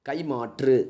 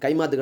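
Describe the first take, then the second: First: It is said with the careful formal pronunciation. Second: It is said with the everyday spoken pronunciation. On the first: The speaker calls it right. "இதான் கரெக்டானது" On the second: The speaker calls it wrong. "கைமாத்து கிடையாது"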